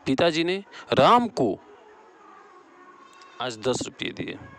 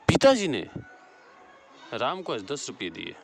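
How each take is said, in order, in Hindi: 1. बलाघात राम को पर है। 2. बलाघात पिताजी पर है। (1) "यहाँ राम को हो जाएगा।" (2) "यहाँ पिताजी बड़ा घात हो।"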